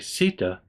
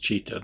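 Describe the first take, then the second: First: The word begins with an s sound. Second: The word begins with a ch sound. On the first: "but I'm pronouncing it Sita" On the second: "that's probably actually pronounced Chitta"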